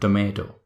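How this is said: It is said in an Indian accent.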